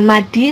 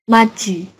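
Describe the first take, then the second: First: The middle consonant is a d sound. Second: The middle consonant is a j sound. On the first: The speaker calls it wrong. "bukan madi" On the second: The speaker calls it right. "tapi maji"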